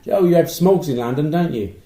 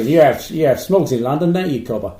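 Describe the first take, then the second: First: Put-on American accent. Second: Loud mock Australian accent; hammy Aussie voice with "cobber". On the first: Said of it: "I'll try my American accent". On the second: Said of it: "That was Australia".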